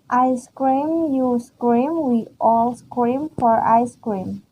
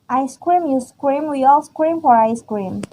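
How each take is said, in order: First: It is read at normal speed. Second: It is read fast.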